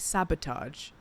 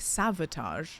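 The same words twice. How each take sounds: First: The middle consonant is a B sound. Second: The middle consonant is a V sound. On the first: "I don't say sabotage" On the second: "I think I end up saying sabotage"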